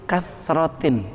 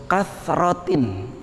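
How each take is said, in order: No difference in how they are said.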